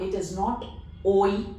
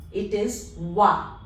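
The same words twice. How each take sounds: First: "oi" said as English oy, the wrong way. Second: "wa" said clearly as wa; right wa. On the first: Teacher contrasting the wrong oy with the French wa. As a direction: show "oi" as oy, the sound to avoid. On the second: Teacher contrasting the correct wa with the wrong oy. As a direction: model "wa", the correct French oi. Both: Shown as a demonstration.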